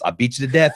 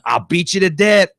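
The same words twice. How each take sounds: First: It is said in his normal voice. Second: It is said in an imitated Shane voice.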